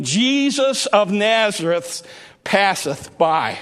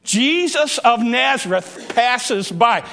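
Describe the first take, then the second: First: "Jesus of Nazareth passeth by" drawn out slowly; solemn, slow title phrase; slow, deliberate delivery of the phrase. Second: Said in the usual way. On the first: Shown as a demonstration. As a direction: let each word of "passeth by" land deliberately. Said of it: "the thought that I want you to keep". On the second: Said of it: "That's my title".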